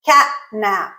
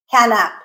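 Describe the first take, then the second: First: "catnap" with a glottal stop, t cut off. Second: "catnap" with a released t, "cat-nap". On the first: Teacher giving the correct "catnap" with a glottal stop. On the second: Teacher showing the wrong "catnap" with a released t. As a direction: pop the t of "catnap". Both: Shown as a demonstration. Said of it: "We didn't say".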